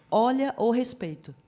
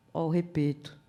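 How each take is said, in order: First: Mild mock telling-off; retold firm reminder. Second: Put-on "repeto" with the s and i dropped, as a toddler says it; imitated toddler pronunciation. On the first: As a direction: call a small child to order. Tia repreende o sobrinho que gritava. (advertência firme, reencenada) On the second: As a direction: imitate a small child saying "repeto", simplified and low-key. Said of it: "meu sobrinho tinha três aninhos". ("repeto" imitando fala de criança pequena, sem s nem i)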